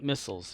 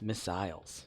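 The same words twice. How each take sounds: First: It is said with an American pronunciation. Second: It is said with a British pronunciation. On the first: "Not missiles" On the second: "That's how you know he's British"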